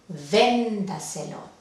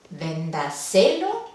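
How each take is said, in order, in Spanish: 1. El acento está en la primera sílaba. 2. El acento está en la tercera sílaba. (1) "la intensidad va en la sílaba anterior a la antepenúltima"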